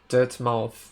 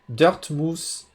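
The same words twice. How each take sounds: First: The name is said with an English accent. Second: The name is said with a French accent. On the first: The speaker calls it right. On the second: The speaker calls it wrong.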